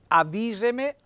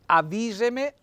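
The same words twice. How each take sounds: First: The stress falls on the i vowel. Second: The same.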